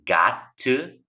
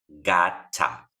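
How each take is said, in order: First: The word 'to' is said in full. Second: The word 'to' shrinks to a weak vowel. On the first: "En lugar de decir got to" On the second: "va a quedar gotta"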